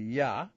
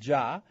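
First: The word begins with a Y sound. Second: The word begins with a J sound. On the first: This is the Hebrew way of saying it. "in Hebrew it would be Yah" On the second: This is the English way of saying it. "they pronounce it Jah"

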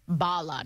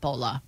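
First: The vowel sounds like 'ah'. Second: The vowel sounds like 'oh'. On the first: The speaker calls it right. "Bala, not Bola" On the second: The speaker calls it wrong. "not Bola"

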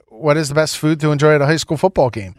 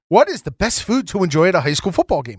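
First: It is read flatly, without much enthusiasm. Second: It is read with more enthusiasm and energy.

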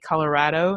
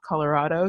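First: It is said the way locals say it. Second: It is said the way outsiders say it. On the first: The speaker sounds like they belong there. The speaker calls it right. "I feel like I have to say Colorado" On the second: The speaker sounds like they are not from there. The speaker calls it wrong. "not Colorado"

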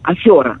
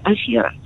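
First: The stressed vowel is pronounced "yo". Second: The stressed vowel is pronounced "e". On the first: The speaker calls it wrong. "очень хочется, когда ударение на «е», произносить это «ё». Афера, да, ну это совершенно неверно" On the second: The speaker calls it right. "Запомним, что в этом слове нет ё"

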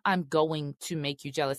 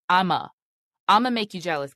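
First: The words 'I'm going to' are said in full. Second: The words 'I'm going to' shrink to 'I'ma'. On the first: The speaker calls it wrong. "It's not I'm going to make you jealous" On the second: The speaker calls it right. "y'all have to say it like that. It's I'ma make you jealous"

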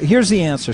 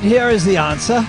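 First: It is said in the speaker's normal voice. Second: It is said in a put-on imitation voice. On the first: "No, I won't" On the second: "I suspect I may be stuck in this voice for a while"

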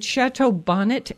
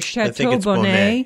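First: Bonnet is said with an English-style pronunciation. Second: Bonnet is said with a French-style pronunciation.

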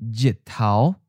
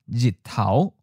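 Both takes have the same delivery.

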